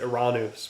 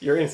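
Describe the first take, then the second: First: The name is said with the Greek pronunciation. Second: The name is said the common English way. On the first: It avoids the joke. "which is the Greek pronunciation" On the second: It sounds like a joke. "it's hard, to, you know, to read that planet in any other way sometimes"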